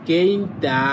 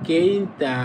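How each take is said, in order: The two takes are said the same way.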